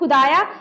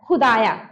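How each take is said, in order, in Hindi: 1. पहला व्यंजन एक साधारण स्पर्श ध्वनि है। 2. पहला व्यंजन एक गले की संघर्षी ध्वनि है। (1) "ध्वनि में परिवर्तन नहीं रहेगा तो" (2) "अगर ये नुक्ता लग जाएगा तो"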